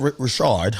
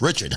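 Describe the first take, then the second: First: The name is said with a French-style pronunciation. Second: The name is said with a plain English pronunciation. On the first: It follows the bearer's preferred fancy pronunciation. The speaker calls it wrong. "I hate calling her that. She's trying to be a little French" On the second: It is the ordinary way the name is said. The speaker calls it right. "It's Richard"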